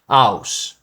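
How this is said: The h sound at the start is dropped.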